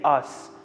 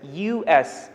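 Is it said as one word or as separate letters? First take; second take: one word; separate letters. First: It is said as a single word. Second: Each letter is said separately. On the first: "I didn't say us" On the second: "I said U S"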